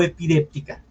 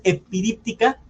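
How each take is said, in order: First: Epidéptica stressed on an e, "de"; pronunciation with e. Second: Epidíptica stressed on an i, "di"; first option, epidíptica with "díp"; pronunciation with i. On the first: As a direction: say epidéptica as "e-pi-DÉP-ti-ca". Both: Shown as a demonstration. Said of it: "No sé cuál es la pronunciación".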